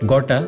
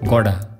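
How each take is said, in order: First: The middle consonant is a clear T sound. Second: The middle consonant sounds like a D.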